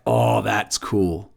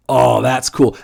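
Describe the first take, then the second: First: Hushed, drawn-out "Oh, that's cool"; soft, slow aside. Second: Said in the usual way. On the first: Retold or imitated. Quietly impressed by the Argentines' flyer, slow and hushed. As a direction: let it slip out low and slow, half to yourself.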